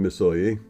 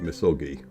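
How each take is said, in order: First: The middle consonant is a Y sound. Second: The middle consonant is a hard G. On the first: "the G is pronounced with a uh, Y" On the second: "you might call it Misogi because it's M E S O G I"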